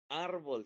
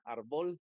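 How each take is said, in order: First: The stress is on the first syllable. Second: The stress is on the last syllable. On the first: The speaker calls it right. "Pero árbol sí" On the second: The speaker calls it wrong. "La sílaba tónica no puede ser la última porque diría árbol y esa palabra no existe"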